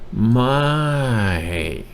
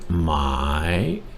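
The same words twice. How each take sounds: First: The word is said with a falling tone. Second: The word is said with a rising tone. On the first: It makes the sentence negative. "with a falling tone" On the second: It turns the sentence into a question. "the rising tone"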